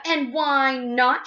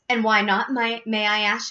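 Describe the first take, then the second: First: High, very drawn-out challenge; shrieking. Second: Slightly raised challenge; mild shout. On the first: Missus Gloop demands Wonka's reason, shrieking. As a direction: stretch each word into a shriek. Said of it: "shrieked Missus Gloop". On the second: Missus Gloop challenges Wonka, mild shout. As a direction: challenge him, barely raised. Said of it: "shouted Missus Gloop". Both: A narrator's reading.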